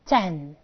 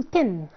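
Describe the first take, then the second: First: "تن" with an open e, low and falling; low, careful model "تن"; correct ten. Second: "تن" with a narrow i; wrong ten, "tin". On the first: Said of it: "في ناس كتير قوي بتقول تن". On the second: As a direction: close the vowel so "تن" sounds like "tin". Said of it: "مفيش حاجه عندي اسمها تن". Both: Shown as a demonstration.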